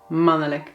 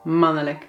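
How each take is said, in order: First: It is said with a vowel before -lijk. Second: The same.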